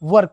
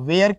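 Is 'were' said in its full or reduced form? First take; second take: reduced; full. First: The vowel is short and reduced. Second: The vowel is full and drawn out. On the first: The speaker calls it right. "वर कहिए" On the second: The speaker calls it wrong. "वेयर के जगह"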